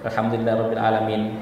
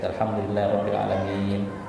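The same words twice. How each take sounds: First: The final vowel of 'alamin' is short. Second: The final vowel of 'alamin' is long. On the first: The speaker calls it wrong. "tidak dikasih panjangkan min" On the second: The speaker calls it right. "tetap ikuti uh, tajwid ya"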